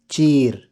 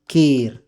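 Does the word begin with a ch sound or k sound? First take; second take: ch sound; k sound. First: The word begins with a ch sound. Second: The word begins with a k sound. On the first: The other dialect says it this way. "Words with ka or cha" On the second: One dialect says it this way. "Words with ka or cha"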